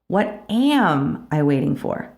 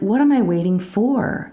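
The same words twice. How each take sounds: First: The stress is on "am". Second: The stress is on "for".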